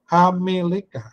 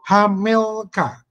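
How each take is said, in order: First: The word is said with four syllables. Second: The word is said with three syllables. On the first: The speaker calls it wrong. "Kalau Hameleka itu Bapak baca itu menjadi empat suku kata" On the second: The speaker calls it right. "bisa dibaca menjadi tiga suku kata"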